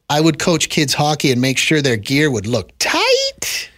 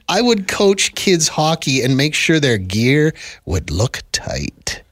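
First: It is read in an innocent tone. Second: It is read in a creepy tone.

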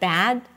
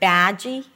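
First: The word ends on the consonant without a vowel. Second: An extra vowel is added after the final consonant. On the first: The speaker calls it right. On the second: The speaker calls it wrong.

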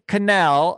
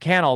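First: The name does not sound like 'channel'. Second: The name sounds like the word 'channel'. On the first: The speaker calls it wrong. "I keep saying it wrong" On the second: The speaker calls it right. "it's like YouTube channel"

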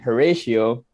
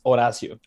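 First: The name begins with an H sound. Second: The name begins without an H sound. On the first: The speaker calls it wrong. "everybody's like saying Horatio" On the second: The speaker calls it right. "my name is pronounced Horacio. In Spanish, the H is actually silent"

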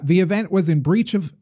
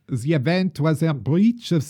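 First: It is said in the speaker's normal voice. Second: It is said in a put-on foreign accent.

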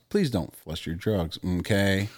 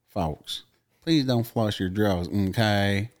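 First: It is said in the speaker's ordinary voice. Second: It is said like a Tennessee police officer.

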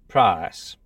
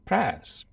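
First: The vowel has a Caribbean-influenced London quality. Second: The vowel is flattened almost to a short e. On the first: "This variety incorporates some vowel sounds from parts of the Caribbean. So price is pronounced price" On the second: "or even press"

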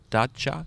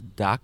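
First: The middle consonant is a ch sound. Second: The middle consonant is a hard k sound. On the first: "But the pronunciation is dacha?" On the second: "I think of this as pronounced as daca"

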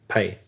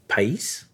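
First: No final s sound is pronounced. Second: A final s sound is pronounced. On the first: The speaker calls it right. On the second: The speaker calls it wrong. "No, you don't pronounce it"

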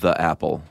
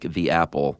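First: The word 'the' is said with a short 'uh' vowel. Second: The word 'the' is said with a long 'ee' vowel. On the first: The speaker calls it wrong. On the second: The speaker calls it right. "you should say "the" when the following noun starts with a vowel, like"

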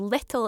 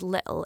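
First: The middle t is clearly pronounced. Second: The middle t is a glottal stop. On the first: It sounds proper and school-like. "little is for the classroom" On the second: It sounds casual and playful. "little is for the playground"

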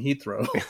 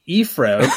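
First: The h and th sounds are fully pronounced. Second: The h is dropped and th sounds like f. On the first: This is the standard way to say it. "For everyone else in the world, it's in English" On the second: This is how some British people say it. "which I guess is how the Brits say it"

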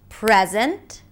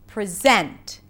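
First: The stress falls on the first syllable. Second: The stress falls on the second syllable. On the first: It is a noun: a gift. "a present" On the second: It is a verb: to show or give. "to present"

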